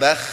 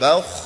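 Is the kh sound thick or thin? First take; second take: thin; thick. First: The kh is thin, with spread lips. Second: The kh is thick, with rounded lips. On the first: The speaker calls it wrong. "bukan bakh" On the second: The speaker calls it right. "Kho sukun diawali fathah itu tebal. Jadi monyong bakh ya"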